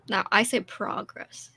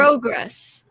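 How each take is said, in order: First: "progress" said slowly, first vowel "ah", as in prah-gress; own progress. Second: "Progress" said the Canadian way, first vowel "oh", as in proh-gress. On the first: Friend shows her own way of saying it, "progress" with "ah". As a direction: give your own "progress", slow, with "ah". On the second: Reading a Canadian word list aloud, "Progress" with "oh". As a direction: read out the listed "Progress" with a long "oh". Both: Shown as a demonstration.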